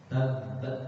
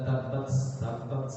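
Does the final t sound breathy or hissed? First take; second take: breathy; hissed. First: The final t is held, then breath released. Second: The final t ends with a hissing sound. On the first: The speaker calls it right. "jadi tertahan sifat suaranya, baru hembuskan udaranya" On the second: The speaker calls it wrong. "bukan tabbat tabbat"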